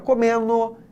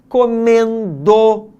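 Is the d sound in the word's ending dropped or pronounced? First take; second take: dropped; pronounced. First: The d in the ending is dropped. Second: The d in the ending is pronounced. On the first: "é muito comum que as pessoas falem assim, ó" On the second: "comece a se policiar para que você possa falar"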